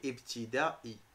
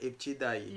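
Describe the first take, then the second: First: The final 'i' is spoken as its own syllable. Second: The final 'ai' is blended into one gliding sound. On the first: The speaker calls it right. "pour prononcer le I tout seul" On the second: The speaker calls it wrong. "tu vas le lire Ibtidaï"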